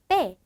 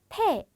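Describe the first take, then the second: First: The first consonant is tense with no breath. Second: The first consonant has a puff of breath. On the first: The speaker calls it right. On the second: The speaker calls it wrong. "그냥 패 아니고"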